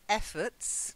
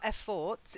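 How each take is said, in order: First: The last syllable has a weak schwa vowel. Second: The last syllable sounds like the word fort. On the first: The speaker calls it right. "It's got the schwa" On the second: The speaker calls it wrong. "not efforts. It's not a fort"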